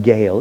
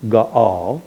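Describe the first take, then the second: First: "Gael" as a single syllable; wrong pronunciation. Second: "Gaal" in two syllables, ga-AL; vowels pronounced separately. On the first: Teacher showing what it isn't, "Gael" in one syllable. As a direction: merge the vowels of "Gael" into one sound. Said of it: "it's not Gael". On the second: Teacher correcting the name, "Gaal" split into ga-AL. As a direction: split "Gaal" so both a's sound. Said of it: "you pronounce each vowel separately". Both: Shown as a demonstration.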